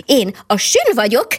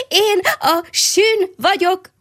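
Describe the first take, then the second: First: Calling out. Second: The hedgehog cries out his name again, high, slow and stretched out; joyful call. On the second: The little hedgehog calls his new name to all the passing animals, high and slow. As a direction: sing out "sün" high and long, full of joy. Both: A narrator's reading. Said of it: "mindenkinek oda kiáltotta".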